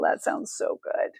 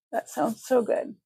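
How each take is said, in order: First: Under her breath, voiceless; whispered aside; hushed. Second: Said in the usual way. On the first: Real, not acted. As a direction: breathe it almost to herself. Repeats her comment, first take hushed.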